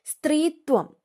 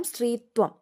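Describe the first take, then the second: First: സ്ത്രീത്വം pitched higher, falling at the end; announced word. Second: Said in the usual way. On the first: Shown as a demonstration. Teacher announcing the word to students, pitched up. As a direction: call out സ്ത്രീത്വം on a raised note. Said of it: "സ്ത്രീത്വം ആണ്". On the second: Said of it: "അത് ഓർത്തോണം".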